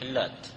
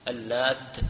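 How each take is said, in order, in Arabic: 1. صوت التاء الأخيرة مفرد وقصير. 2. صوت التاء الأخيرة مشدّد ومُمدّ في النطق. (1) "وقرأ بالتخفيف" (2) "قرأت اللات بتشديد التاء"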